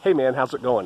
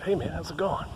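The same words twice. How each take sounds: First: It is said in a louder, clearer voice. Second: It is said in a low, quiet voice.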